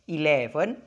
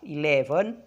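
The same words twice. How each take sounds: The two takes are said the same way.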